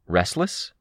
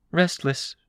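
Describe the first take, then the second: First: "Restless" rising at the end; questioning. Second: "Restless" high, falling at the end; confirming. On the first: Sveta is asked about her change, "Restless" rising questioningly. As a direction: offer "Restless" as a tentative question. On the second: Sveta confirms her change, "Restless" falling as an answer. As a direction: confirm "Restless" in a higher character voice. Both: A narrator's reading.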